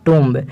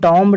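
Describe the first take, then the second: First: The vowel is a long 'oo' sound. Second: The vowel is a short 'o' sound. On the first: The speaker calls it right. "इसको हम pronounce करते हैं यानी इसका उच्चारण करते हैं टूम" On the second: The speaker calls it wrong. "इसको टॉम्ब नहीं पढ़ा जाता"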